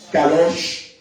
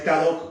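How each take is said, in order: First: The word ends with an sh sound. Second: The word ends with a k sound. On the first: The speaker calls it right. "es Kadosh" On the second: The speaker calls it wrong. "no es Kadok"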